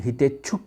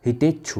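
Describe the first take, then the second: First: हितेच्छुक said as "hitecchuk", with a final "k"; wrong form shown. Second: हितेच्छु said as "hitecchu", ending on "u" with no "k"; correct form shown. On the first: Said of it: "नहीं होता बल्कि हितेच्छु होता है". (गलत रूप हितेच्छुक, अंत का "क" साफ़ बोलें) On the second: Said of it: "बल्कि हितेच्छु होता है". (सही रूप हितेच्छु, अंत "उ" पर, बिना "क" के) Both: Shown as a demonstration.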